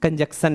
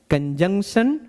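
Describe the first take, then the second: First: कंजंक्शन mispronounced as "kan-jak-san"; wrong pronunciation. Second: कंजंक्शन with nasal middle, "kan-JUNK-shan"; correct pronunciation. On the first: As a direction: lose the middle N in कंजंक्शन, S for SH. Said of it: "नहीं बोलना है". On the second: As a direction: keep the N and SH in कंजंक्शन. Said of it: "कंजंक्शन नहीं बोलना है". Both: Shown as a demonstration.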